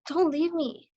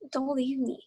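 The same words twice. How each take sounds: First: It sounds bright and excited. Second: It sounds scared and worried.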